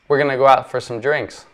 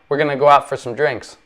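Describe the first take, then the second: The two takes are said the same way.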